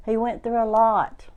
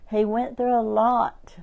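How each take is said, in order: Both takes have the same delivery.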